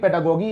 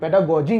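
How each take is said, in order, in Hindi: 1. अंतिम शब्दांश की शुरुआत कड़े 'g' की आवाज़ से होती है। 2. अंतिम शब्दांश की शुरुआत 'j' की आवाज़ से होती है।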